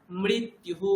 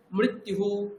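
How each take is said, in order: First: "মৃত্যুহু" with rophola, m-r then short i. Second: "মৃত্যুহু" slowly, m fused with ri; ri-kar. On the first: Teacher models the hypothetical spelling, rophola sound. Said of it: "যদি ময় রফলা হ্রস্ব ইকার থাকতো". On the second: Teacher models ri-kar word for student, mri joined. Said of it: "এটা হলো ময় রিকার বললাম". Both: Shown as a demonstration.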